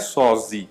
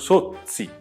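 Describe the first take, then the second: First: The double z sounds like a plain z. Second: The double z sounds like ts. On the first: The speaker calls it wrong. "Meu sobrenome não é Sozzi" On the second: The speaker calls it right. "mas a pronúncia é Sozzi"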